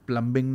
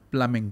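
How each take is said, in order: First: The b sound is pronounced. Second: The b sound is silent. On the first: The speaker calls it wrong. "प्लम्बिंग नहीं बोलते, ऐसे नहीं बोलते" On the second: The speaker calls it right. "बी नहीं बोलते, प्लमिंग कहते हैं"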